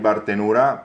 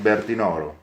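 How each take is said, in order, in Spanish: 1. El nombre se dice con las vocales de su dialecto local. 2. El nombre se dice con las vocales del italiano estándar. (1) "conforme al dialecto local hay Bartenura" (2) "conforme en italiano el nombre del lugar es Bertinoro. Es el nombre correcto"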